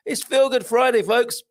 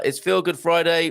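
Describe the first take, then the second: First: High, bright show-intro call; big announcer catchphrase. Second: Said in the usual way. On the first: Acted. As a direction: sing out the catchphrase like a radio jingle.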